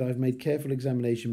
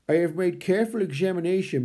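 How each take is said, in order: First: It is read in the speaker's normal voice. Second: It is read in a put-on character voice.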